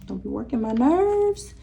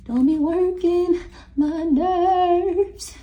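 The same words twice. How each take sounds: First: Said in the usual way. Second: Higher, slow, stretched-out whine; mock high whine. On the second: Shown as a demonstration. Reader repeating her warning in a high, slow mocking whine. Reader scolds spirits, then mocks.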